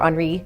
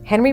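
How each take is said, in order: First: The name is said the Dutch way. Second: The name is said the American English way. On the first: "she knew the pronunciation" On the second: "for American purposes, we say Henry"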